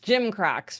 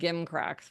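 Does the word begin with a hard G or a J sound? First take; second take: J sound; hard G. First: The word begins with a soft J sound. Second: The word begins with a hard G sound. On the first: The speaker calls it right. "It's Jim Cracks, people" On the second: The speaker calls it wrong. "not Gim Cracks, which is what I'd been saying"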